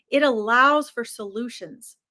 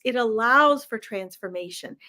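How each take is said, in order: First: Whispered, breathy and close; right in your ear. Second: Said in the usual way. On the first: Shown as a demonstration. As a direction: lean in and whisper it. Repeated line, second whispered.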